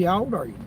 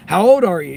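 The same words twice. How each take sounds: First: Said in the usual way. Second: Asked again, louder and pointed; louder repeat. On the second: Real, not acted. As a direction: push the question out louder this time.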